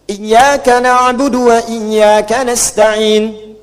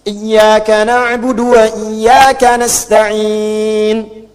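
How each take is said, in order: First: The final vowel is held briefly, two counts. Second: The final vowel is held longer, four counts.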